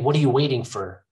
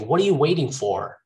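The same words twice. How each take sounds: First: The final 'for' is reduced to a weak schwa. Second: The final 'for' is said with its full vowel. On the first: The speaker calls it wrong. "You don't say" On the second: The speaker calls it right. "you want to finish with a strong pronunciation"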